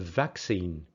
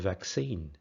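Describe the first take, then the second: First: It has the British English stress pattern. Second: It has the American English stress pattern. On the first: "In British English" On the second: "In American English"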